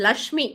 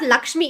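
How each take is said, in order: First: No k sound comes before the sh. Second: A k sound comes before the sh. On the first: The speaker calls it right. "It's லக்ஷ்மி, கரெக்டா" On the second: The speaker calls it wrong. "It's not லக்ஷ்மி, என்ன எல்லாரும் கே கொண்டு வரீங்க?"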